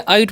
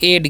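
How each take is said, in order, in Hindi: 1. स्वर 'eye' जैसा है, और यह t पर खत्म होता है। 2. स्वर 'eh' जैसा है, और यह d पर खत्म होता है। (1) "बहुत सारे स्टूडेंट्स इसे क्या करेंगे, आइट पढ़ लेंगे" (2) "इसे हम लोग पढ़ते हैं एड"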